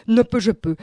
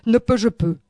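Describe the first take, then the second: No difference in how they are said.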